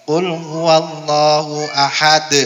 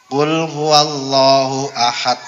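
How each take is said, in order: No difference in how they are said.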